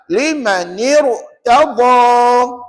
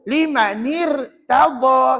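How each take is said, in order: First: The r is said thick and heavy. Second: The r is said thin and light. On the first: The speaker calls it right. "Lima nir tebal" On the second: The speaker calls it wrong. "Kalau saya senyum, salah bacaannya. Baca dengan nipis"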